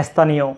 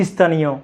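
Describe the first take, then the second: No difference in how they are said.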